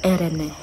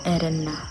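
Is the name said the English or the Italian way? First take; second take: Italian; Italian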